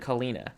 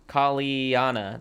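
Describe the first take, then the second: First: The name is said without the extra 'a' sound. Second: The name is said with an extra 'a' sound. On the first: The speaker calls it wrong. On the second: The speaker calls it right.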